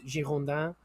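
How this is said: The name is said with a French pronunciation. "the French pronunciation is"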